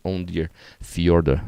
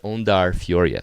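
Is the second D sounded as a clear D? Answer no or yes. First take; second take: yes; no. First: The second D is sounded as a D. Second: The second D is not sounded as a D. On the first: The speaker calls it wrong. "I need to say that better" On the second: The speaker calls it right. "the second D is not a D sound"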